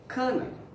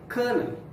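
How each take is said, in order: First: It is pronounced like the word kernel. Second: It is pronounced like the word kernel.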